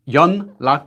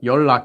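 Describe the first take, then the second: First: The first syllable ends in an n sound. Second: The first syllable ends in an l sound. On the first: This follows the written spelling. "연락 is how you spell it" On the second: This is how people actually say it. "but 연락 is how you say it"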